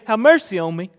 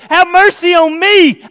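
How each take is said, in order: First: It is said quietly. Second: It is said loudly.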